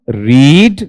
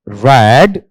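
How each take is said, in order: First: The vowel is a long 'ee' sound. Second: The vowel is a short 'e' sound. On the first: It is the present form. "रीड के तीनों form" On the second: It is the past form. "खाली उच्चारण में change आया"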